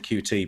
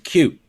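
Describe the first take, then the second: First: It is said as two separate letters. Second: It is said as one word, like cute. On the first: The speaker calls it wrong. "I've always said Q T" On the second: The speaker calls it right. "one of the other ones is cute"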